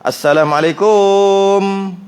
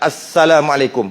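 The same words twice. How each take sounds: First: The final syllable is stretched into a long vowel. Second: It is said quickly with a short final syllable. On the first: "Tempat yang tak ada alif dia pergi panjangkan, letak waw kat situ" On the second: "Tempat yang ada alif tak mau panjangkan pula. ... Laju sangat"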